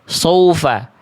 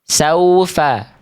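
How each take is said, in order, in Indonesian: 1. Vokal pertama terdengar seperti o, tebal. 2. Vokal pertama adalah a terbuka yang jelas. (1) "kedengarannya kayak tebel, kayak huruf sod" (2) "Sa dulu jelaskan"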